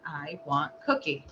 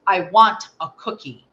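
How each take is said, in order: First: Low, soft, incomplete phrase; toneless signed request. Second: "I want a cookie" said loud, every word distinct; clear full sentence. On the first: Mother relaying her son's signed plea, low and soft. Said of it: "and he said". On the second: Son's first spoken "I want a cookie", clear and loud. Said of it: "Clear as a bell, full sentence". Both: Retold or imitated.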